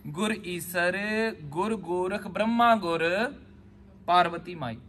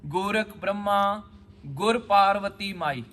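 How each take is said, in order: First: ਗੁਰ held onto Brahma, then a pause before Parvati ਮਾਈ; slow chant of ਗੁਰ ਗੋਰਖ ਬ੍ਰਹਮਾ ਗੁਰ, break, then Parvati ਮਾਈ alone; the other phrasing. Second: Slow recitation with a break after Brahma and ਗੁਰ joined to Parvati ਮਾਈ; pause after Brahma. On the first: Teacher shows students how others read it, ਗੁਰ before the pause. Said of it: "ਇਹਨੂੰ ਇੰਦਾ ਨਹੀਂ ਪੜ੍ਹਨਾ". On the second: Teacher recites the line to students, pausing after Brahma. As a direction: chant Gorakh Brahma, then ਗੁਰ ਪਾਰਵਤੀ ਮਾਈ as one phrase, slowly. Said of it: "ਕਹਿੰਦੇ ਜਿਹੜੀ ਬੀਬੀ ਆ ਉਹ ਗੁਰ ਨਹੀਂ ਹੋ ਸਕਦੀ".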